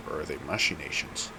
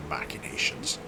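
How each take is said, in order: First: "machinations" said with a SH sound in the first syllable; variant pronunciation. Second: "machinations" said with a K sound in the first syllable; usual pronunciation. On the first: Player unsure how a word is pronounced, variant with SH in "machinations". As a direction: say "machinations" as mash-in-ations, softly questioning. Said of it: "how I hear that pronounced". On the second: Player settles on the pronunciation they usually hear, K in "machinations". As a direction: say "machinations" as mack-in-ations, quietly. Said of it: "typically how I hear that pronounced".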